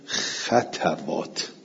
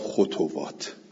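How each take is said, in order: First: The vowel a follows the t sound. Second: The vowel u follows the t sound. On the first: "به فتل خواه و تا" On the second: "ول باقونه به زمه ها"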